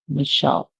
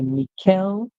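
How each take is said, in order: First: The middle sound is sh, no final vowel. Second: The middle sound is k, no final vowel. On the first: "the C H makes a sound like sh... the end is silent" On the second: "the C H being pronounced as K"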